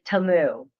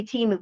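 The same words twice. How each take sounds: First: "Temu" as Tuh-moo; actual pronunciation. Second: "Temu" as Tee-moo; usual "Tee-moo" pronunciation. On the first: Host correcting the brand name, "Temu" pronounced Tuh-moo. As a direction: say "Temu" with a short unstressed first vowel. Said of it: "but it's actually Temu". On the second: Host showing what we say, "Temu" pronounced Tee-moo. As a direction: say "Temu" with a long ee. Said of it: "we say Temu". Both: Shown as a demonstration.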